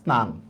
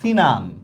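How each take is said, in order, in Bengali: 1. শব্দটি ব্যঞ্জনগুচ্ছ দিয়ে শুরু হয়। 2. একটি স্বরধ্বনি শুরুর ব্যঞ্জনগুচ্ছকে ভেঙে দেয়।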